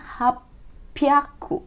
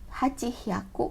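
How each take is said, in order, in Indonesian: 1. Diucapkan sebagai satu kata gabungan, hapyaku. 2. Diucapkan sebagai dua kata terpisah, hachi dan hyaku. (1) "jadinya hapyaku" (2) "bukan hachi ya, hachi hyaku, karena itu susah dibacanya"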